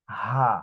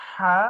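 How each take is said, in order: First: "হা" fully open, no throat pressure. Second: "হা" squeezed from mid-throat; throat-pressed h. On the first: Teacher showing the difference, fully open "হা". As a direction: let "হা" flow from an open throat. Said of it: "একদম open". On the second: Teacher showing the difference, throat-pressed "হা". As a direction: tighten the mid-throat through "হা". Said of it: "এটা গলার মাঝখানে চাপ দিয়ে". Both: Shown as a demonstration.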